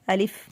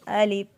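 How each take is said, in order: First: The final f has a hissing whistle. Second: The final f has no hissing whistle. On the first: The speaker calls it wrong. "फ़ा के अंदर हवा भरी जाती है, सीटी लेकर आते हैं" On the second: The speaker calls it right. "फ़ा में सीटी नहीं लाएंगे"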